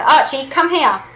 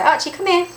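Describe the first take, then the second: First: Louder, slower, insistent recall; frustrated dog call. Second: High-pitched recall call; calling the dog. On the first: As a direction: call the dog who isn't coming, drawn out. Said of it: "I'm gonna feel frustrated". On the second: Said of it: "when I call back my dog using my voice". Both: Shown as a demonstration.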